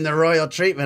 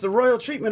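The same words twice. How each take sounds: First: It sounds knowing and menacing. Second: It sounds impressed and warmly appreciative. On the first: Someone was made to suffer. "it's all in the tone of voice" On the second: Someone was treated very well. "it's all in the tone of voice"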